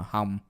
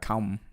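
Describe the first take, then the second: First: The word begins with an h sound. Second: The word begins with a k sound. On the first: This is how the speaker personally says it. "how I say it would be uh hum with an H" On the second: This is how Northern speakers say it. "they would say the word uh come with a with a C in front"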